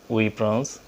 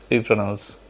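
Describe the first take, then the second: The two takes are said the same way.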